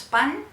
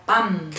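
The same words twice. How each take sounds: First: Said in the usual way. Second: "pam" with a long humming M; Cali-style "pam", slow, N turned into M; Cali final M. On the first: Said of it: "en Cali no comemos pan". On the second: Shown as a demonstration. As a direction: say pam for pan, lips closed on M. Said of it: "y la M".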